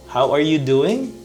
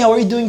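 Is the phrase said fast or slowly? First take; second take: slowly; fast. First: The phrase is said slowly. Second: The phrase is said quickly. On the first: The speaker calls it right. "How about changing the pace?" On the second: The speaker calls it wrong. "it's too fast"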